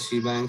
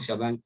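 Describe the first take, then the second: First: The first syllable has a full 'ee' vowel. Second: The first syllable is a short reduced 'sh'. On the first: "तुमको याद रखना है शी बैंग करके" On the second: "शबैंग भी बोला जाता है"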